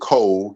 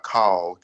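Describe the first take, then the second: First: The vowel sounds like 'o'. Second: The vowel sounds like 'a'. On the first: "pronouncing it Cole, K O L" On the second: "and not Kal, K A L"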